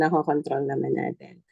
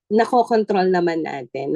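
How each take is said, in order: First: "nakokontrol naman natin" lower, softer and falling; soft echo. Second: "nakokontrol" stressed with a rising end; emphatic assurance. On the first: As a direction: repeat "nakokontrol" quietly to yourself. (mahina at pababang ulit ng "nakokontrol") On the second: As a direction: press on "nakokontrol" and lift the phrase. (diin sa "nakokontrol", paakyat ang tono) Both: Shown as a demonstration.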